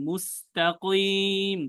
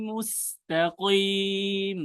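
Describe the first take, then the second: The two takes are said the same way.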